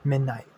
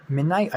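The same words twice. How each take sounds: First: Midnight. said flat and falling, settled; confirming. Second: Midnight? with a rising questioning tune. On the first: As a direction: state "Midnight." firmly with a falling end. Confirming the name. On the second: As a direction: ask "midnight?" unsure, pitch going up. Guessing the name. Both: Acted.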